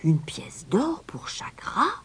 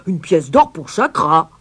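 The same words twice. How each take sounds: First: High, hushed, slow disbelief; crowd murmur. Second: Loud outraged roar; roaring mayor. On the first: Crowd echoes the stranger's price, in a hushed murmur. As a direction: murmur it as a high, astonished question. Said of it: "Un murmure parcourut la foule". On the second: Mayor finally grasps the price, roaring. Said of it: "puis il rugit". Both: A narrator's reading.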